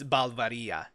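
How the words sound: The name is pronounced in a Spanish style. The speaker calls it right. "it's Spanish centric. So it, it's Balvaria"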